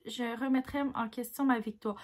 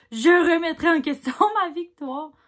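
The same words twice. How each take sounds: First: Said in the usual way. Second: Loud amused retake with a laugh. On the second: Shown as a demonstration. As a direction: repeat it louder, breaking into a laugh midway.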